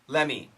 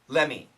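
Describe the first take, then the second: The two takes are said the same way.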